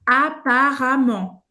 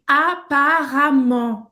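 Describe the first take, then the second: First: "Apparemment" said slowly, the E sounding like A and a guttural R; slow French pronunciation. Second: "apparemment" said slowly, the E sounding like A, R in the throat; slow French pronunciation. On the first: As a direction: model "Apparemment" deliberately for the learner. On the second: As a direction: spell it out slowly, "a-pa-ra-mant". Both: Shown as a demonstration. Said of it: "a gente vai pronunciar como A".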